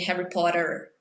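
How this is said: It is said with an American accent. "American people would say Harry Potter"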